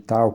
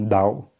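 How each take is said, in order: First: The word starts with a t sound. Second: The word starts with a d sound. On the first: This is the Western way of saying it. "que é a maneira ocidental de falar" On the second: This is how the Taoists say it. "com D"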